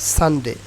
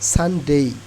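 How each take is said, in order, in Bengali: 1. শেষ স্বরটি একটি সমতল, বিশুদ্ধ 'e'। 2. শেষ স্বরটি উপরের দিকে গড়িয়ে 'ee'-তে পরিণত হয়। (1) "নট সানডে" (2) "এটা কি উচ্চারণ হবে? সানডেই"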